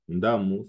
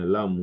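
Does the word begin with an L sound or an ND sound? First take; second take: ND; L. First: The word begins with an ND sound. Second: The word begins with an L sound. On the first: "Le N D ... peut devenir L" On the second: "ça devient Lamu"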